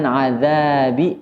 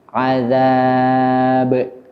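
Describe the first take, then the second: First: The final bounce leans toward an i vowel. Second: The final bounce leans toward an a vowel. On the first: The speaker calls it wrong. "bukan azabi" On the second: The speaker calls it right. "tapi azab"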